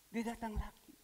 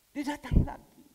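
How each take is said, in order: First: Said in the usual way. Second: Suddenly louder, driving the words out; a loud preacher's punch; emphatic loud. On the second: Real, not acted. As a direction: land it hard for the congregation. Repeats arrival line, emphatic.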